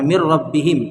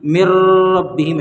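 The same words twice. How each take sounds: First: मिर रब्बिहिम joined straight with no nasal hum; without ghunna. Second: मिर रब्बिहिम broken apart with a pause after मिर; demonstrating the incorrect reading; wrong way. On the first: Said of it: "बगैर गुन्ना के मिलाकर पढ़ेंगे". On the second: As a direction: split मिर from रब्बिहिम, the mistake to avoid. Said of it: "ऐसे करके नहीं पढ़ना है". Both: Shown as a demonstration.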